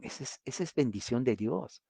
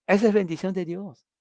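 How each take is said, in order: First: Quiet aside. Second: Emphatic declaration. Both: Real, not acted.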